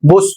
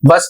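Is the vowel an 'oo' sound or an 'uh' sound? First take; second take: oo; uh. First: The vowel is an 'oo' sound, as in book. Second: The vowel is an 'uh' sound, as in cup. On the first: The speaker calls it wrong. "बुस पढ़ें" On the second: The speaker calls it right. "बस को बस ना पढ़ करके"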